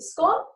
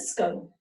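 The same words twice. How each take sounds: First: "scone" with a short o, like gone. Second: "scone" with a long o, like bone. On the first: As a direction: ask with a clipped short o in "scone". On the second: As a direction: ask with a drawn-out long o in "scone". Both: Shown as a demonstration. Teacher asking which way scone is said. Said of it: "I don't know".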